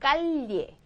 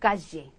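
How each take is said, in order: First: The double-L is sounded like an L. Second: The double-L is sounded like a J. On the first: This is how it sounds in some regions. "리을을 더 많이 집어넣기도 하는데" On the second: This is how it sounds in Argentina. "아르헨티나 쪽 가면 얘를 더 지에 이래가지고"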